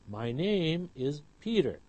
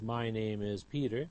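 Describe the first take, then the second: First: Name and Peter are clearer than my and is. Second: Name and Peter are not stressed more than my and is.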